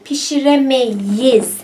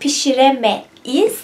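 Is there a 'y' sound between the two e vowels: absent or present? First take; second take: present; absent. First: A y sound links the two e vowels. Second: The two e vowels meet with no y between. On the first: The speaker calls it right. "we say pişiremeyiz. That's why we use a linking sound, linking consonant here" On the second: The speaker calls it wrong. "Instead of pişiremeyiz"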